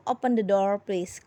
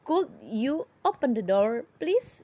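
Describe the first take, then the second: First: Said in the usual way. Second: Polite request. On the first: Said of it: "Dapatkah kamu menutup jendela itu?". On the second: Shown as a demonstration. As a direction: soften it into a polite rising request. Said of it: "would itu lebih sopan lagi".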